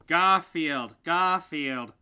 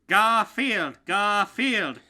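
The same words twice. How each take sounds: First: It is said with little enthusiasm. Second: It is said with lots of enthusiasm.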